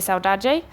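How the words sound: It is said in a Brazilian Portuguese accent.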